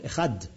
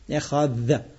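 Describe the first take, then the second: First: The word ends with a short d sound. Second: The word ends with a soft th sound. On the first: "Our dalet, which is d, you can't prolong it" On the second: "That the dalet is like a th in English"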